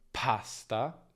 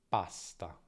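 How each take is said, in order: First: The p is said with a puff of air. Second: The p is said without a puff of air. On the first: The speaker calls it wrong. "non diciamo pasta" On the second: The speaker calls it right. "In italiano non c'è nessuna aspirazione"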